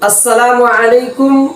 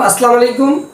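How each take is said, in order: First: Every sound of the greeting is said fully. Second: Sounds of the greeting are distorted or dropped. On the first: It wishes peace and mercy on the listener. The speaker calls it right. "অর্থ হচ্ছে যে আল্লাহ তাআলা আপনার উপর শান্তি এবং রহমত বর্ষণ করুন" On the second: It wishes wrath and punishment on the listener. The speaker calls it wrong. "এভাবে বলি, তা হচ্ছে আপনার উপর গজব বর্ষিত হোক"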